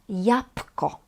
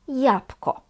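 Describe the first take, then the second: First: The word is pronounced in a reduced, casual way. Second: The same.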